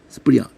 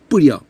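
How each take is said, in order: First: A faint s sound comes before the p. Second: It starts directly with a tense p sound. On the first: The speaker calls it right. "스를 건들면서" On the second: The speaker calls it wrong. "지금도 뿌려 이렇게 안 합니다"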